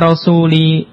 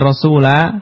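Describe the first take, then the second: First: The word ends with an i vowel. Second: The word ends with an a vowel. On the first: The speaker calls it right. "kenapa dibaca rasuli" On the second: The speaker calls it wrong. "bukan rasula"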